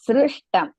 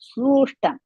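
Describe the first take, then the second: First: The first syllable is said with a 'ri' sound. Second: The first syllable is said with a 'ru' sound. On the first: The speaker calls it right. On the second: The speaker calls it wrong. "Not srushtam"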